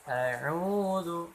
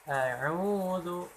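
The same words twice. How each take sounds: Both takes have the same delivery.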